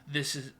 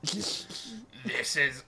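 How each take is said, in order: First: It is said in a plain reading voice. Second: It is said in a put-on wet, raspy voice.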